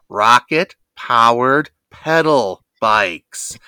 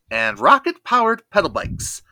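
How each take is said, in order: First: It is said slower and louder. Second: It is said at normal speed and volume.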